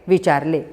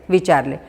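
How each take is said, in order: The two takes are said the same way.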